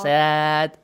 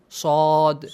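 First: The mouth opens left to right, lips spread. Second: The mouth opens up and down, lips rounded. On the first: The speaker calls it wrong. "This is wrong" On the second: The speaker calls it right. "up and down"

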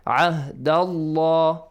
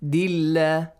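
First: The L sound is thick and heavy. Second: The L sound is thin and light. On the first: "you gotta pronounce the letter lam of the word Allah or the word Allahumma heavily"

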